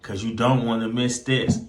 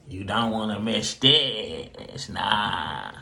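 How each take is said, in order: First: Said in the usual way. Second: Slower and softer, drawn-out tease; a hushed, knowing aside to viewers; soft teasing echo. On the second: Acted. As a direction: let the repeat trail off low and teasing. Host repeats teaser, drawn out.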